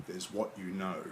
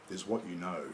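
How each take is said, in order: The two takes are said the same way.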